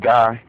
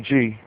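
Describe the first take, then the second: First: The vowel sounds like 'eye'. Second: The vowel sounds like 'ee'. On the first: This is how some other people say it. "some of y'all probably pronounce it Guy" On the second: This is how the speaker's community says it. "we say G"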